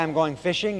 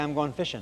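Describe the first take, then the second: First: The -ing endings are fully pronounced. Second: The -ing endings are dropped to -in'. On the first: "You don't say I'm going fishing" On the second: "You don't finish your words. ... you say I'm going fishing"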